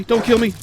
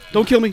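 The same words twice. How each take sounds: First: High frantic plea repeated; panicked pleading again. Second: Panicked pleading. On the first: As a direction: beg not to be killed. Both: Real, not acted. Pleading while attacked.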